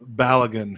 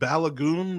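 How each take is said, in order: First: The name is said in the familiar English way. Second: The name is said with the Nigerian pronunciation. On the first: "I've like never heard it pronounced like that" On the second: "apparently that is the Nigerian pronunciation for it"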